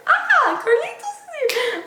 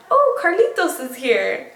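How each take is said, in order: First: Much higher, cooing hello with a laugh; high squealy greeting. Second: Said in the usual way. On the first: Real, not acted. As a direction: squeal a delighted welcome. Greets arriving pet or child.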